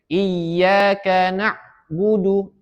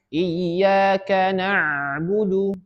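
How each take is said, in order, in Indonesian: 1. Bunyi tenggorokan terputus mendadak. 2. Bunyi tenggorokan mengalir tanpa putus. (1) "Tidak ada alirannya" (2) "Harus mengalirkan"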